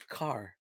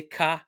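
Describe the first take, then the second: First: "car" with a clearly rounded R, softly. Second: "car" with the R left unrounded; "car" as the plain half of a contrast; distinct "car". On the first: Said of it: "I round my R's". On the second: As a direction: say "car" open, lips not rounded on the R. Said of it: "So I say". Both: Shown as a demonstration.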